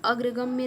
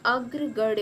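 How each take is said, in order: First: अग्रगम्य ending in "gamya", with an m; wrong form. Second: अग्रगण्य ending in retroflex "ganya"; corrected form. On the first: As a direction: say m before ya in अग्रगम्य. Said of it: "अग्रगम्य नहीं होता". (अग्रगम्य में "गम्य" बोलें) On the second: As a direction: curl the tongue for the n in अग्रगण्य. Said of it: "अग्रगण्य होता है". (अग्रगण्य में "गण्य" बोलें) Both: Shown as a demonstration.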